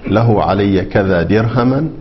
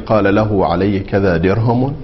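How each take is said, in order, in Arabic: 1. الكلمة الأخيرة تنتهي بالفتحة. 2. الكلمة الأخيرة تنتهي بالضمة. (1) "النصب" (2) "بالحركات الثلاث ... الرفع"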